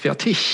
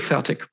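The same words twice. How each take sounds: First: The name ends with a soft ish sound. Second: The name ends with a hard k sound. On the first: The speaker calls it right. "proper German, it's Fertig with some ish sound at the end" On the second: The speaker calls it wrong. "with more or less a K or a hard G in the end"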